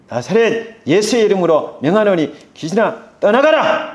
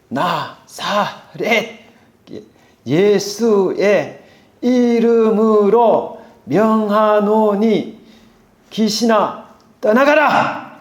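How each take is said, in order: First: The command is said faster, as a shout. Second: The command is said at a slower pace.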